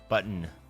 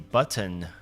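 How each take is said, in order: First: The middle T is swallowed, not released. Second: The middle T is clearly pronounced.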